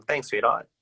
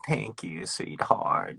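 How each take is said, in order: First: Breezy, offhand "Thanks, sweetheart." tossed off with a rise; everyday Aussie casual thanks. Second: Soft, breathy granny-style sweetheart; a lightly voiced grandma saying thanks; grandma version. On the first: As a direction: say "sweetheart" like it's nothing. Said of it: "it's very casual". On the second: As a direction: coo it like a sweet old grandma. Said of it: "not like a grandma version". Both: Shown as a demonstration.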